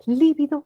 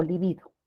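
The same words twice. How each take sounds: First: Lívido as LI-vi-do, high on LI; first-syllable stress. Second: Libido as li-BI-do; middle-syllable stress. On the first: Teacher asks the class, Lívido stressed on LI. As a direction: push the opening LI of Lívido. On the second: Teacher asks the class, libido stressed on BI. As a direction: put the weight on BI in libido. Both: Shown as a demonstration. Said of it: "¿Lívido o libido?".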